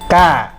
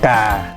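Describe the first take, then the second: First: The tone goes up slightly higher. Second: The tone goes down to low pitch. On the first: "tiếng nó sẽ lên cao một chút" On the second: "tiếng sẽ thấp xuống ngang nhau với là tiếng dấu huyền"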